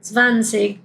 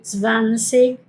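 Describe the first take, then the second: First: Zwanzig ending in a soft ch sound. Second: Slow zwanzig ending in a hard K; German zwanzig. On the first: Teacher showing the other zwanzig ending. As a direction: let zwanzig end on a soft ch. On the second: Teacher showing zwanzig with a K ending. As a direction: spell out zwanzig with final K, slowly. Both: Shown as a demonstration. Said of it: "que puede sonar como G o como C H".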